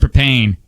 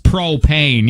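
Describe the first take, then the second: First: The word is said without a clear O sound. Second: The word is said with a clear O sound. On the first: The speaker calls it wrong. "you're not saying it with an O in it" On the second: The speaker calls it right. "It's propane"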